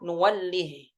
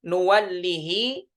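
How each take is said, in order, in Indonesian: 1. Kata ini berakhir dengan bunyi h. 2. Kata ini berakhir dengan vokal pendek tambahan. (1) "disukunkan, tidak dipanjangkan" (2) "mad silah dibacanya"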